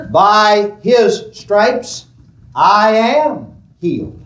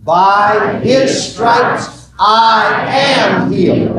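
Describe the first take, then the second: First: Slow, deliberate statement of faith; slow confession. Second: "By his stripes I am healed" shouted, drawn out; slow shouted confession. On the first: Preacher modelling the confession slowly for the congregation. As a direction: set the words down slowly for them to follow. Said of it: "I want you to say this with me". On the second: Preacher shouting the confession with the congregation. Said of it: "say this with me". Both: Shown as a demonstration.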